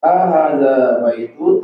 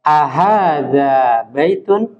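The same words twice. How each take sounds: First: Student's wrong long a; long first a. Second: "Ahadza" with a short a and a lengthened h, slow; slow careful "Ahadza", short a, long h; teacher correcting vowel length. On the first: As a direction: stretch the first a of "Ahadza". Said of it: "A-nya pendek ya". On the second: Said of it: "Yang panjang itu H-nya". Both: Shown as a demonstration.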